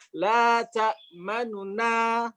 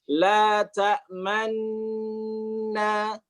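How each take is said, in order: First: A quick, partial vowel separates the two n sounds. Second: The n sounds merge, with lips rounding near the end. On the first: "contoh bacaan ikhtilas ya" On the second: "dengan ismam di akhir ketika hendak mengucapkan na"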